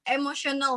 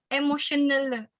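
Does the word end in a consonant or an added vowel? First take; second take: consonant; added vowel. First: The word ends cleanly on its final consonant. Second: An extra vowel is added after the final consonant.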